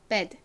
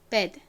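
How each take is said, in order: The two takes are said the same way.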